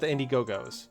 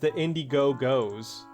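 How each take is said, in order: First: The name runs together without a pause. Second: There is a pause inside the name. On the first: "not the Indiegogo's" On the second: "I just put that weird pause in there"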